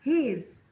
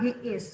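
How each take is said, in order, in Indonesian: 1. Disingkat jadi satu suku kata yang pendek. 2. Diucapkan sebagai dua kata penuh yang terpisah. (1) "yang kalian dengar adalah he's" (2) "Kamu jangan bilang he is"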